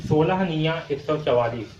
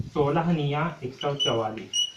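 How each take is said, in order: First: Said in the usual way. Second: Slower, each number spaced out in सोलह निया एक सौ चवालीस; slow repetition. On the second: Shown as a demonstration. Teacher repeating the times table for students, slowly. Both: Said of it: "क्या होता है".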